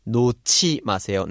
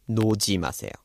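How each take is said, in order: First: 놓지 said with the ㅎ merging into the ㅈ as a sharp aspirated 치; correct Korean pronunciation. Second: 놓지 said with a soft unaspirated ji, the ㅎ dropped; wrong pronunciation. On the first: Teacher demonstrating the right way to say 놓지. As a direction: say 놓지 as nochi, the ㅎ folding into an aspirated ch. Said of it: "it's changing to 놓지 마세요". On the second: Teacher showing students the wrong way to say 놓지. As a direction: say 놓지 as noji, plain soft j. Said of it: "not 놓지 마세요". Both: Shown as a demonstration.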